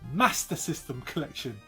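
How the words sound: It is said in a northern English accent. "as some of you guys up north pronounce it"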